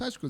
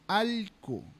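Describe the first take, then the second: First: The middle consonant is an SH sound. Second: The middle consonant is an L sound. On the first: This is how other regions say it. "en la Amazonía no decimos Ashku" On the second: This is how Amazon speakers say it. "decimos Alku"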